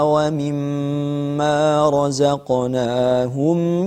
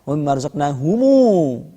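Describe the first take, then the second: First: The final m is closed with no vowel. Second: The final m is followed by a u vowel. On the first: "Pada mim jamak kita baca dengan al-iskan" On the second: "Ibnu Katsir membaca dengan sila"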